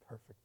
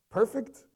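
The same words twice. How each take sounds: First: Quiet assurance. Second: High, loud, rising query; incredulous question. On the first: Parent affirming the child to a doubter, quietly certain. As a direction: answer almost under the breath. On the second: Challenging a parent who calls the child perfect, incredulous. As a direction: ask it in disbelief. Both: Acted.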